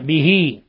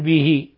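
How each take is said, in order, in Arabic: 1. تُمدّ الحركة الأخيرة فتصير ياءً طويلة. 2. تنتهي الكلمة قصيرة دون مدّ. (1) "ولاحظوا الصلة به" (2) "لا نقول به"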